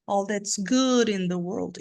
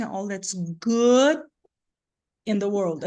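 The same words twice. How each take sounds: First: Slow, "good" on top, "in the world" falling without a break; stress on GOOD, joined. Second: Very slow, long "good", full stop before "in the world"; separated at GOOD. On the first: Teacher showing the strongest syllable, "good" linked to the rest. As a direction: lift "good" and let "in the world" tail down, linked. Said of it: "o resto vem caindo, mas não separa". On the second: Teacher showing the unwanted version, pause after "good". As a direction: stretch "good", then break before "in the world". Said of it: "A gente iria escutar separado".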